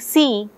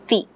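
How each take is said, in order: First: The word begins with a hissing s sound. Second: The word begins with a stopped t sound. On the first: This is the adult form of the word. The speaker calls it right. "instead of saying see" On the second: This is a young child's simplified form. The speaker calls it wrong. "the child says thi, because sa is not acquired yet"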